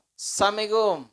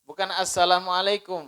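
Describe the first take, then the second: First: Assalamualaikum clipped to samikom, pitched higher; mock the sloppy door greeting samikom; slurred careless door call. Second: Said in the usual way. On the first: Shown as a demonstration.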